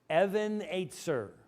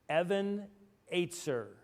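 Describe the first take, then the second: The two takes are said the same way.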